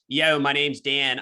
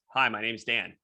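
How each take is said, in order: First: It is said in a Philadelphia accent. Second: It is said in his neutral accent.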